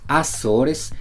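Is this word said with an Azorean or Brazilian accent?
Brazilian. It is said with a Brazilian accent. "en Brasil dirían Azores"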